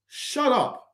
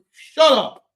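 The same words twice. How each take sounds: First: Curt higher put-down; dismissive. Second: Louder, laughing shout of shut up; loud laughing retort. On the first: Fan cutting off the owner's excuses, curt higher dismissal. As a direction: brush him off with a sneer. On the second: Fan shouting down the owner's excuses, loud and laughing. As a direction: yell it back through a laugh. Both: Real, not acted.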